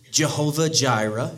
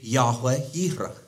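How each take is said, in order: First: Both words begin with a hard J sound. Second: Both words begin with a Y sound. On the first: The speaker calls it wrong. "so it wouldn't be Jehovah Jireh" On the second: The speaker calls it right. "it would be Yahweh Yireh. That's the Hebrew"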